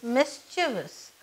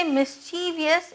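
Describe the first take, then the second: First: "mischievous" said as MIS-chuh-vus; three-syllable "mischievous", ending in plain -vus; correct mischievous. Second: "mischievous" said as mis-CHEE-vee-us; four-syllable "mischievous", ending in -vee-us; mispronounced mischievous. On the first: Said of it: "it's pronounced as mischievous". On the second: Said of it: "Don't ever say mischievous, it is mischievous". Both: Shown as a demonstration.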